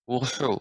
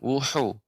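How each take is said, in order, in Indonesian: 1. Bunyi h dibuat dengan tenggorokan yang menyempit. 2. Bunyi h dibuat dengan tenggorokan yang menyempit.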